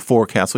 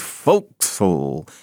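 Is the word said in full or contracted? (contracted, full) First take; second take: full; contracted. First: Each part, fore and castle, is said fully. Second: The parts run together into one short word. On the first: The speaker calls it wrong. "you don't say forecastle" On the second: The speaker calls it right. "you say forecastle"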